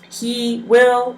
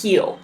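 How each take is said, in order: First: It is said as two separate full words. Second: It is said as one contracted syllable.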